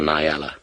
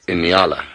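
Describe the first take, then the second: First: The word begins directly with a 'nya' sound. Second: The word begins with an extra 'in' sound. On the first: The speaker calls it wrong. "the way that it's kind of spelt" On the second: The speaker calls it right. "the official pronunciation is an Inyala"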